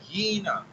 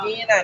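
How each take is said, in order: First: The word starts with a 'y' sound. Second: The word starts with a plain vowel. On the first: The speaker calls it right. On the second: The speaker calls it wrong.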